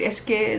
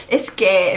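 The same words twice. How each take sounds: First: Said in the usual way. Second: Venezuelan 'es que' with the s breathed away; Venezuelan accent. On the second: Retold or imitated. Imitating a Venezuelan friend's speech, Venezuelan accent with weak s. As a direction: soften the s of es que like a Venezuelan. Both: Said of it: "en vez de decir".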